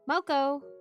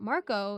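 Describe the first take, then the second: First: The middle consonant sounds like an l. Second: The middle consonant is a clear r sound.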